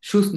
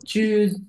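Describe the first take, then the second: First: The word begins with a 'sh' sound. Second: The word begins with a 'ch' sound. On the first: The speaker calls it wrong. "শুজ না" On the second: The speaker calls it right. "চ, চয়ের মতো চুজ"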